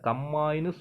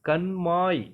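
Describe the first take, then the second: First: The middle consonants are a double m. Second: The middle consonants are n then m. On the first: The speaker calls it wrong. "கம்மாயின்னு சொல்லாம" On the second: The speaker calls it right. "கண்மாய் அப்படின்னு சொல்லணும்"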